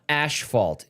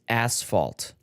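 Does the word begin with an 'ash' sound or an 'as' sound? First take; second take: ash; as. First: The first syllable is said with an 'ash' sound. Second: The first syllable is said with an 'as' sound. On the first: The speaker calls it wrong. "It's not asphalt. There's no ash" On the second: The speaker calls it right. "It's asphalt"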